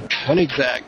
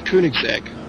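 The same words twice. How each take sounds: First: The name is said with an English pronunciation. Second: The name is said with a German pronunciation. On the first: The speaker calls it wrong. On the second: The speaker calls it right.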